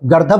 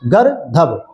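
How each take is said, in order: First: The middle consonant is a plain d. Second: The middle consonant is a breathy dh. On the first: The speaker calls it right. "ग, द और द के ऊपर र होगा और फिर भ होगा" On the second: The speaker calls it wrong. "बहुत लोग उसको प्रोनाउंसिएट क्या करते हैं?"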